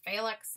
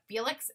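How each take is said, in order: First: The name is pronounced the German way. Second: The name is pronounced in a non-German way. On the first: The speaker calls it right. "It's the German pronunciation" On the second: The speaker calls it wrong. "instead of Felix"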